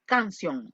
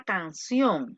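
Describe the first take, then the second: First: "canción" said as if unaccented, stress off CIÓN; sin la tilde. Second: "canción" con la tilde, golpe en CIÓN; acento en la última. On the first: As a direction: say "canción" without its final-syllable stress. ("canción" como si no llevara tilde) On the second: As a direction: stress the final syllable of "canción". ("canción", acentuada al final) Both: Shown as a demonstration. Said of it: "Si yo le quito la tilde".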